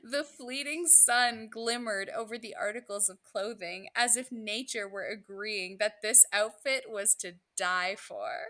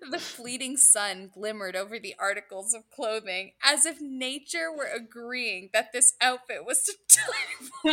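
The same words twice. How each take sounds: First: It is read straight, without laughing. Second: It is read breaking into laughter.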